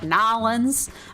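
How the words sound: It is said Nolans, in a New Orleans accent.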